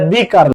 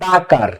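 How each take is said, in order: First: 'The' is pronounced with a long 'ee' vowel. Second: 'The' is pronounced with a short 'uh' vowel. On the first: The speaker calls it wrong. "দি কার না" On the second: The speaker calls it right.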